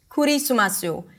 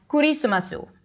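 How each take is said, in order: No difference in how they are said.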